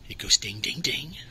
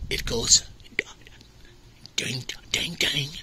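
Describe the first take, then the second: First: It is said in the speaker's usual accent. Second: It is said in a put-on Australian accent.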